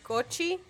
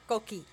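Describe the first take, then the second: First: The middle consonant is a soft ch sound. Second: The middle consonant is a hard k sound. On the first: The speaker calls it wrong. "We say cochi" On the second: The speaker calls it right. "he say coqui"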